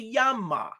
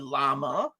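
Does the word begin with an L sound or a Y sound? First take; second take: Y sound; L sound. First: The word begins with a Y sound. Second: The word begins with an L sound. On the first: The speaker calls it right. "we say yama" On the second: The speaker calls it wrong. "we don't say llama"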